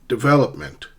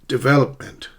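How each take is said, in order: No difference in how they are said.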